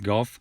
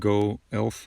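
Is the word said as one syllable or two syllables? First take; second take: one syllable; two syllables. First: The word is said as one syllable. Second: The word is split into two syllables. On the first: The speaker calls it right. "It's just golf" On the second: The speaker calls it wrong. "It's not go elf"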